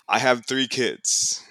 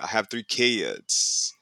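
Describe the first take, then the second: First: It is said in the speaker's own accent. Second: It has long, nasal Southern vowels.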